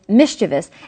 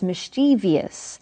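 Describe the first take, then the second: First: The word is said with only three syllables. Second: The word is said with an extra fourth syllable. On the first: The speaker calls it right. "the proper pronunciation is" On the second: The speaker calls it wrong. "you may hear people pronounce this word as mischievous"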